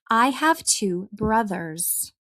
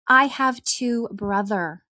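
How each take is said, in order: First: The final S sound is clearly pronounced. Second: The final S sound is left off. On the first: The speaker calls it right. "Now listen to the sentences correct" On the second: The speaker calls it wrong. "Listen to these mistakes"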